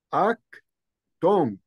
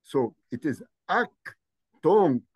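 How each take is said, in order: First: "ak" then "tonk" after a pause, tonk louder; Coptic pronunciation. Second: "ak tonk" split into two clear syllables, tonk stressed; Coptic pronunciation. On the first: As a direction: repeat "ak tonk" slowly for the class. ("أك" ثم "تونك" بصوت أعلى) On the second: ("أك تونك" مقطعًا مقطعًا) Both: Shown as a demonstration. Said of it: "my pronunciation".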